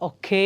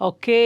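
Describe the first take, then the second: First: The final vowel is drawn out, gliding into y. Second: The same.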